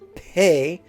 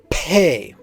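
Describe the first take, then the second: First: The P is said without a puff of air. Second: The P is said with a puff of air. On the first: "This is without the aspirant" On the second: "and with the aspirant"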